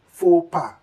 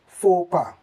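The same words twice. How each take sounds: No difference in how they are said.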